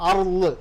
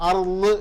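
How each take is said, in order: The two takes are said the same way.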